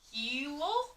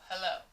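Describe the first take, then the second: First: The first vowel is a long E sound. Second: The first vowel is a short E sound. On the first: The speaker calls it wrong. "you could try it with a long E" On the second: The speaker calls it right. "In the word hello, you hear eh. You do not hear E"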